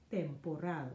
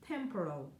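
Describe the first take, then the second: First: Temporal said the Spanish way, tem-po-RAHL; Spanish pronunciation. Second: Said in the usual way. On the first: Shown as a demonstration. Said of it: "you say". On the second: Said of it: "you know".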